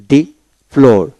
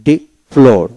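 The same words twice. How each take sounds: The two takes are said the same way.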